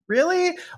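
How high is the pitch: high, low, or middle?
high. The word is said at a higher pitch. It sounds most insistent. "And then a third time"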